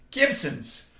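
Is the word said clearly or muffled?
clearly. It is said clearly, with an empty mouth.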